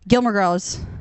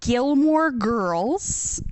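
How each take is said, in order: First: The name is said quickly without care. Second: The name is said slowly and carefully. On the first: The speaker calls it wrong. "I won't even think about it" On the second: The speaker calls it right. "I say it slowly like that"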